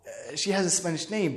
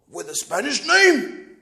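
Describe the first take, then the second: First: Soft, low, hesitant concession; nervous. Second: Slow question swelling in disbelief; incredulous father. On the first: Son answering his father's doubt, sheepish and low. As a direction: concede it quietly and uneasily. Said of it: "Then I start sound like we nervous". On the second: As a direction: stretch it out as a sceptical father. Father questioning son about girlfriend. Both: Retold or imitated.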